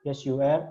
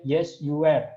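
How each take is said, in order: First: "Yes, you were." with "were" rising at the end; rising answer tune. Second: "Yes, you were." with "were" falling, louder; falling answer tune. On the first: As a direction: lift "were" upward at the end. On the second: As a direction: state it firmly, tune dropping on "were". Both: Shown as a demonstration. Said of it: "Misalnya di sini".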